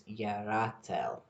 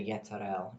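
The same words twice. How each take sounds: First: Yeratel, YEH-rah-tel, slow and careful; correcting herself to Yeratel, slower; right name Yeratel. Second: Yeterel, with a T where the R belongs; saying the name wrong as Yeterel, with a T. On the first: Correcting herself to viewers, careful slow Yeratel. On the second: Slipping into the wrong name Yeterel while explaining the angel. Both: Shown as a demonstration. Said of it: "I keep wanting to say Yeterel".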